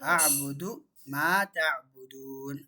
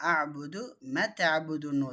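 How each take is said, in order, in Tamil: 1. 'ma' வில் உள்ள உயிர் இரண்டு எண்ணிக்கை நேரம் நீட்டப்படுகிறது. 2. 'ma' வில் உள்ள உயிர் குறுகியது. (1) "ரெண்டு அலிஃப்க்கு கண்டிப்பாக நீட்டணும்" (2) "இந்த அலிஃபை விட்டுருவாங்க"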